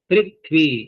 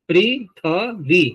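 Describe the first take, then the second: First: No vowel follows the 'th' sound. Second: A short 'a' vowel follows the 'th' sound. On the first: "थ में से स्वर है ही नहीं अब" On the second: "थ में अकार"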